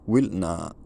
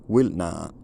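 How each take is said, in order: No difference in how they are said.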